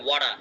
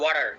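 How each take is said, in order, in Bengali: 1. এটি অস্ট্রেলিয়ান ইংরেজি উচ্চারণে বলা হয়েছে। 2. এটি আমেরিকান ইংরেজি উচ্চারণে বলা হয়েছে। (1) "অস্ট্রেলিয়ান বলবে" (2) "আমেরিকানরা বলবে"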